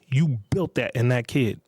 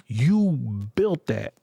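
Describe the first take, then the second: First: Said in the usual way. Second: "you built that" said very slowly, each word hammered, BUILT stressed; slow pointed stress. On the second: Real, not acted. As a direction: drag out "you built that", weighing every word. Lecturing parents, pointed accusation.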